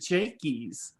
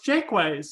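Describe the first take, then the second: First: The name ends with a short 'ys' sound. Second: The name ends with a 'ways' sound. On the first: This is how other people say it. "people were re- pronouncing it Jakeys" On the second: This is how the family says it. "it's Jakeways"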